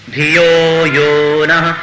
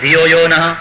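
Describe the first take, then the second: First: The 'yo' syllables are drawn out and held long. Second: The 'yo' syllables are rushed and said short. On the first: The speaker calls it right. "બંને યો એ ગુરુ છે, એને લંબાવવા જ જોઈએ" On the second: The speaker calls it wrong. "એને બદલે બોલી નાખો ધિયો યો નઃ, ખોટું"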